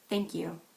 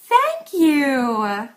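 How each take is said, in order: First: It is said in a flat, understated way. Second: It is said in an exaggerated, overdone way. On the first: The thanks is held back. "Or understated" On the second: The thanks is overplayed. "If you want to sound exaggerated"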